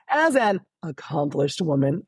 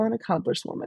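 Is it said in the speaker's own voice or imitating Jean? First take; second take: own voice; imitating Jean. First: It is said in the speaker's own voice. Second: It is said imitating Jean's offhand manner.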